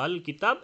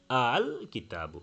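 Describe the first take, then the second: First: আল as a long sustained "aaaaaal" before কিতাব; six-count madd. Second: আল with a lightly touched second hamza, not held long; light tashil. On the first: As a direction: hold the vowel of আল extremely long and unbroken, then কিতাব. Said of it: "ছয় হরকত লম্বা করে". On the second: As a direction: slowly ease through আল, halfway between hard catch and long vowel, then কিতাবু. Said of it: "মাঝামাঝি একটা হালকা উচ্চারণ". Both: Shown as a demonstration.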